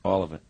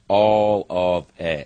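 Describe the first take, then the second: First: Said in the usual way. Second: ALL OF IT stretched very slowly, louder; drawn-out emphasis. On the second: Real, not acted. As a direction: draw out every word of "All of it", heavily. Repeats his loss for effect.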